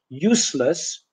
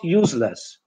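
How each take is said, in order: First: The middle consonant is a hissing s sound. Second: The middle consonant is a buzzing z sound. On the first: The speaker calls it right. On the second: The speaker calls it wrong.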